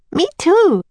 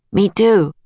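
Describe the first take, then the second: First: Put-on high-pitched eager little girl; Annie. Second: Lightly voiced boy, slightly raised pitch; Jack. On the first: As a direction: chime in high as the younger sister. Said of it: "said Annie". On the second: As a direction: echo as the boy, less high. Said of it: "said Jack". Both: A narrator's reading.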